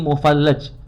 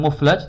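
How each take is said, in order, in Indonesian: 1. Diucapkan dengan tiga suku kata, mu-fal-laj. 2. Diucapkan dengan dua suku kata, muf-laj. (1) "yang betul mufallajul asnan" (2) "Muflaj ini salah harokatnya"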